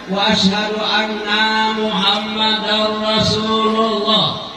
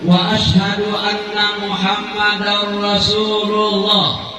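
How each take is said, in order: First: The word 'anna' is drawn out long. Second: The word 'anna' is said short. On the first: The speaker calls it wrong. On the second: The speaker calls it right.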